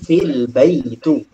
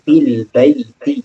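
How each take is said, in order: First: The last word ends with a 'u' vowel. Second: The last word ends with an 'i' vowel. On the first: The speaker calls it wrong. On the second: The speaker calls it right.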